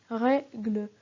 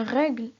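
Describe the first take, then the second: First: "règle" broken as rè... gle, final e sounded; split into syllables. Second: Said in the usual way. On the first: Shown as a demonstration. Teacher shows the mute E, "règle" said syllable by syllable. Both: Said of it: "La syllabe suivante est gle".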